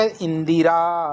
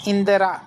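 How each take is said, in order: First: इंदिरा said slowly as in-di-raa; correct pronunciation. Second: इंदिरा said as in-de-raa, no i after d; wrong pronunciation. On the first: Teacher gives the real word, correct pronunciation. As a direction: sound a clear i after d in इंदिरा. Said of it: "क्या शब्द होता है". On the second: Teacher shows a non-word, wrong pronunciation. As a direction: weaken the middle vowel of इंदिरा to a short e. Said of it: "इंदिरा कोई शब्द नहीं होता". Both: Shown as a demonstration.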